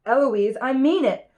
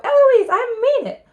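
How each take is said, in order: First: Moderately raised, acted tutor's shout; mild shout of warning; insist, voice lifting on the last words. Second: High, loud mocking yell; piercing copycat shout; shouting back. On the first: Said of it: "And then he shouts". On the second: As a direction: shriek the tutor's warning back at the top of the voice. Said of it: "And then I shout".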